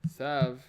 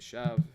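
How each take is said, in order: First: The word begins with a plain s sound. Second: The word begins with a lisped th sound.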